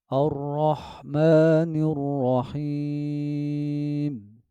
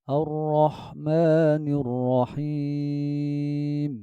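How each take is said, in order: No difference in how they are said.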